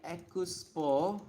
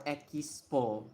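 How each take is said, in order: First: Expo as "e-ku-su-po", with a U after the K; Japanese-style syllables. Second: Expo as "e-ki-su-po", with an I after the K; Japanese-style syllables. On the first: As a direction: slowly break Expo up, "ekusupo". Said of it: "I don't know if it's like". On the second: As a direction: slowly break Expo up, "ekisupo". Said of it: "or Expo". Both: Shown as a demonstration.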